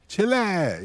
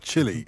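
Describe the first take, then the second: First: It is said with an American pronunciation. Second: It is said with a British pronunciation. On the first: "the way the Yanks always say Chile" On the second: "not chili, as we say"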